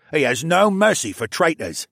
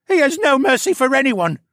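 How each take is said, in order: First: Raised, forceful character voice; louder, emphatic henchman; tough prisoner. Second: Very high, loud whine; pitched-up, panicky correction; sniveling captive. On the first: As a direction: warn grimly as the harder captive. Tougher prisoner warns of his boss. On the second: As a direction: wail it as the cowardly prisoner. Sniveling captive corrects his partner. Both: A narrator's reading.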